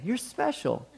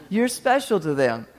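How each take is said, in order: First: Teasing laugh. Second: Said in the usual way. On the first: Shown as a demonstration.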